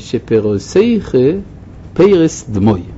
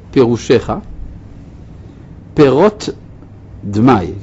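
First: Sh and t sounds become s sounds. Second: Sh and t sounds are kept distinct. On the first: "במבטא הליטאי, השין, הליטאים אומרים אותו סין" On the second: "הוא התכוון להגיד"

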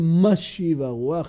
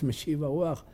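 First: The first word is pronounced mashiv. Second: The first word is pronounced meshiv. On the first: The wind is made to blow. The speaker calls it right. "אז אומרים משיב הרוח, יש דקש במקום מנשיב הרוח" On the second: The wind is brought back. The speaker calls it wrong. "שמעתי פעם מישהו ככה אומר בקול רם... לחלוטין לא נכון"

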